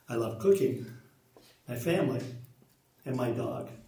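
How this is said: There are pauses after cooking and family.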